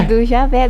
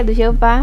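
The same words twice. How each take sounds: First: First try at the name "Javé" before correcting it; "Javé" spoken as ʒa-VÉ, then corrected; wrong name. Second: "Jeová" said ʒe-o-VÁ as the right form; "Jeová" given as the proper form; corrected name. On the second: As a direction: correct yourself with "Jeová", stress on the last syllable. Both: Shown as a demonstration.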